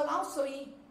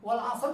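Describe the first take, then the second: First: It ends with an added final i vowel. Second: It ends on the R with no vowel. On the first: The speaker calls it wrong. "bukan wal asri" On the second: The speaker calls it right.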